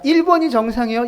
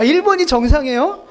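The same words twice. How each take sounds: First: Said in the usual way. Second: Higher, louder incredulous question; laughing mock astonishment; amused disbelief. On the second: Shown as a demonstration. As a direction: ask it as if it were absurd, near laughing. Asks again in amused disbelief.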